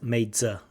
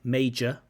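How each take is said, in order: First: The middle consonant is a z sound. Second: The middle consonant is a j sound. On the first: The speaker calls it wrong. "so there's a z" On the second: The speaker calls it right. "English has this j sound"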